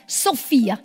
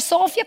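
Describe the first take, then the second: First: The stress is on the second syllable. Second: The stress is on the first syllable. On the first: "con l'accento sulla I" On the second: "senza accento era Sofia"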